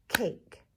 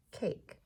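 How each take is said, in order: First: "Cake" as one firm, louder beat; "Cake" punched as one syllable; single clapped syllable. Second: Said in the usual way. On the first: Shown as a demonstration. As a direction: clap out "Cake" in a single hit. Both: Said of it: "One syllable for cake".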